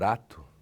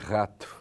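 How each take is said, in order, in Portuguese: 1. A palavra tem sotaque de colônia alemã. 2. A palavra tem sotaque brasileiro padrão. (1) "problema típico de quem vem da colônia alemã, como eu, que eu dizia" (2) "em vez de"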